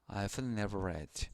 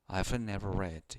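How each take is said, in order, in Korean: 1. 'I have'는 'I've'로 줄여서 말합니다. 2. 'I have'는 'I've'로 줄여서 말합니다.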